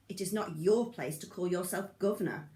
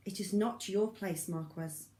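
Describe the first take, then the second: First: Governor leaned on with scorn; Anna mocking the false governor with emphasis; mocking stress on governor. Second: Said in the usual way. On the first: A narrator's reading. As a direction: sneer the word governor. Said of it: "mocking emphasis on the last word".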